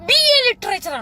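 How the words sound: It is said in an imitated voice. Someone else is being mimicked.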